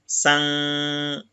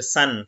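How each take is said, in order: First: Slow "san" with the n nasalised away; nasalized san. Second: Said in the usual way. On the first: Shown as a demonstration. Teacher showing the nasalised reading of san, slow. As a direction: draw out "san" slowly through the nose. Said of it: "on va dire san". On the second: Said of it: "Au lieu de dire san".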